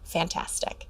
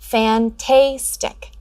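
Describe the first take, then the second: First: The middle syllable has a short vowel sound. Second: The middle syllable has a long vowel sound. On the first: The speaker calls it right. "correct their pronunciation to fantastic" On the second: The speaker calls it wrong. "open syllables end in a vowel and are usually pronounced with the long vowel sound"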